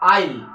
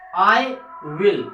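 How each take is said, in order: First: The words merge into one short syllable. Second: Both words are said fully and separately.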